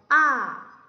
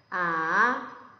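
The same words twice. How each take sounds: First: The pitch falls from high to low. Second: The pitch dips down then rises. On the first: "위에서 아래로 떨어지는 소리예요" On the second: "내려갔다 올라가면 돼요"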